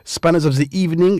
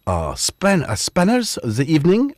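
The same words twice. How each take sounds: First: Said in the usual way. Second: Lightly put-on French accent; a hint of a French accent. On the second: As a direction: slip briefly into French-accented English. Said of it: "I didn't know why I went French".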